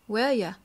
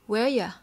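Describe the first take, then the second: First: The words are said fast and run together. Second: The words are said fast and run together.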